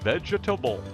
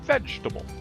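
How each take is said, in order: First: The word is said with four syllables. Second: The word is said with three syllables. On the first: "should have four syllables" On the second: "a native English speaker will only use three syllables"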